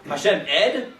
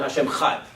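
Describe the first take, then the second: First: The ch sound of echad is dropped. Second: The opening vowel of echad is dropped. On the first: "you can't say the word without the chet" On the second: "I might skip the aleph by accident"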